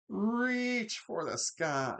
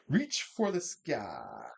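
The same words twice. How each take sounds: First: It is said in an imitated character voice. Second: It is said in the speaker's ordinary voice.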